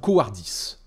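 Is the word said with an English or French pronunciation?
French. It is said with a French pronunciation.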